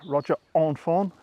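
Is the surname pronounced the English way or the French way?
French. The surname is pronounced the French way.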